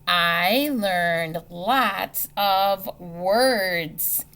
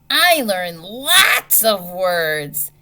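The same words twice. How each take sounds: First: It is said in a plain, calm way. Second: It is said in an excited, expressive way.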